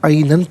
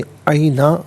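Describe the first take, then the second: First: The word ends with an 'n' sound. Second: The word ends with a long 'a' vowel. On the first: The reading continues without stopping. "यहाँ पर ऐनन पढ़ेंगे" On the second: The reciter stops at this word. "वक़्फ़ की सूरत में ऐना पढ़ा जाएगा"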